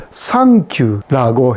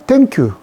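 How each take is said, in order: First: Japanese accent. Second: Said in the usual way. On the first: Shown as a demonstration. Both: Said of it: "그것을 thank you라고 했고요".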